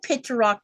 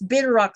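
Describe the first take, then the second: First: The word begins with a P sound. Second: The word begins with a B sound. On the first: The speaker calls it wrong. "It's spelled Pitterrock" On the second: The speaker calls it right. "but it's Bitterrock like a B"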